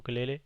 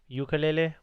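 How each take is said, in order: First: The word begins with an 'oo' sound. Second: The word begins with a 'you' sound. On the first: This is how it is said in Hawaii. "you go to actual the Hawaii and then it's called the ukulele" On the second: This is the usual mainland way of saying it. "with the with the Y"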